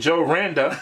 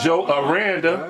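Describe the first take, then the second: First: The surname begins directly with an R sound. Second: The surname begins with an 'a' vowel sound. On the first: The speaker calls it wrong. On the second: The speaker calls it right.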